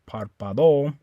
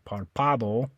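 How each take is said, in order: First: The stress is on the last syllable. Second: The stress is on the second syllable. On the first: "You don't stress the O. You don't say párpado" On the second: "you don't stress this one. You don't say párpado"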